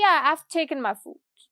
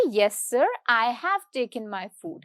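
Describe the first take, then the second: First: Relaxed "Yeah, I've taken my food", "I've" run together; casual reply. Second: Slow, careful full form "I have taken my food"; formal answer. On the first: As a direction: toss it off to a friend. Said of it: "मतलब मैंने बहुत ही casually बोला". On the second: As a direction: answer the boss properly, every word said. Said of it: "मतलब मैं बहुत ही formally जवाब दूंगी". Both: Shown as a demonstration.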